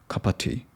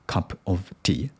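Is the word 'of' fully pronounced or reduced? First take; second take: reduced; full. First: The word 'of' is reduced to a weak schwa. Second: The word 'of' is pronounced fully and clearly. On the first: "I need to pronounce cup of tea" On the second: "I tend to pronounce clearly"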